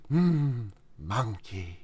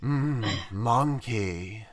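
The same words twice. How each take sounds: First: Low soft drawn-out monkey; imitating a slow, sleepy Turtle, very soft; Turtle imitation. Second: Slow, low, soft surfer drawl; lazy surfer, drawn right out, quiet. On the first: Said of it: "like, clip from the Kung Fu Panda show". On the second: Pretend. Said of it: "You gotta do it in the surfer voice".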